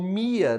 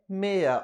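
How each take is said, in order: First: The name is read with English pronunciation. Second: The name is read with Portuguese pronunciation.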